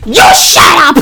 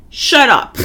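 First: Loud, raised-pitch retort; loud road-rage comeback; screamed comeback. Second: Said in the usual way. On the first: Retold or imitated. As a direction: re-enact yelling back at a calm driver. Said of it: "Like, I'm screaming". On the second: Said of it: "Because he was so calm".

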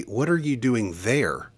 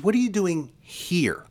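First: "there" set apart as the wrong word; preacher quotes what God doesn't say, stressing "there". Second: Higher, with a pause before "here"; stress on HERE. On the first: Preacher correcting a misquote, stress on "there". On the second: Preacher quoting God's question to Elijah, stress on "here". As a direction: set "here" apart after a beat and lean on it. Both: Retold or imitated.

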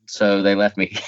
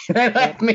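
First: Said in the usual way. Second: Much higher, with a laugh; bursting into a laugh on the repeat. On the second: Real, not acted. Guest laughing as he repeats that his parents left him.

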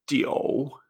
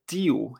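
First: "jiu" said like ji-o-u in a low third tone; correct third-tone pronunciation. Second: "jiu" with i straight into u; wrong pronunciation. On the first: Teacher models number nine in Chinese, correct third tone. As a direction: put an o inside low "jiu". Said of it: "Esto se pronuncia". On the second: Teacher shows a very common beginner error, wrong pronunciation. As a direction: say "jiu" with no o inside. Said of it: "esto no se pronuncia". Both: Shown as a demonstration.

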